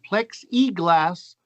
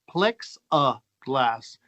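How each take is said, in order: First: The middle vowel is a clear 'ee' sound. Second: The middle vowel is a short 'uh' sound. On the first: This is how the speaker's own group says it. "as we would say it" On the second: This is how another person from elsewhere says it. "you know what he says?"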